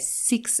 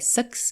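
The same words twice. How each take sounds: First: Six is said in an Australian accent. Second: Six is said in a New Zealand accent. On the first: "since I've been here in Aussie, I've noticed that I've started to say six" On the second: "us Kiwis will say six"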